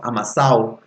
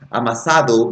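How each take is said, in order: First: The 'd' is dropped, in Chilean style. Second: The 'd' is clearly said in standard Spanish.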